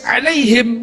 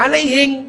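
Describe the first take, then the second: First: It is read in standard Arabic pronunciation. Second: It is read with a Bugis accent, ending in -ng.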